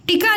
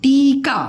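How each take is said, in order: First: टीका clipped to "tika" with short i; wrong short vowel. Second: टीका with a long first ee; correct long vowel. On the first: Teacher rejects a wrong saying, short i in टीका. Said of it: "नहीं होगा". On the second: Teacher gives the right word, long ee in टीका. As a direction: hold the ee in टीका. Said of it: "टीका नहीं होगा". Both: Shown as a demonstration.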